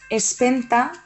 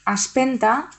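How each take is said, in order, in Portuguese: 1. A primeira vogal soa como e. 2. A primeira vogal soa como a. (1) "es pot pronunciar com a E" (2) "o com a A"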